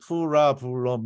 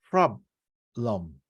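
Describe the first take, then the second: First: The word is spoken with four separate syllables. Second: The word is spoken with only two syllables. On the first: The speaker calls it wrong. "우리말로 보면 프라블럼 이렇게 ... 사음절로" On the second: The speaker calls it right. "실제로 얘네들은 problem, problem. 이게 이음절로"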